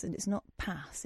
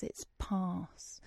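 First: "pass" с коротким плоским а; wrong short vowel. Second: "pass" шёпотом с длинным южным а; whispered posh vowel. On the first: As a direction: say "pass" short and flat, northern style. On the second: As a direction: breathe "pass" with a long southern ah. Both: Retold or imitated. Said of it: "told me that I was pronouncing everything wrong".

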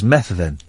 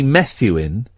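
First: "Methven", a V where the U would be; pronounced with V. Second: "Methuen", drawn out with U in place of V; Roman-style pronunciation. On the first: Host correcting the Roman reading of a name, "Methven" with V. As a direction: say "Methven" with a spoken V. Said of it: "it's not, it's Methven". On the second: Host showing how Romans would read the name, Roman-style "Methuen". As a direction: say "Methuen" with a U sound for the V. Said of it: "that would be a U". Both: Shown as a demonstration.

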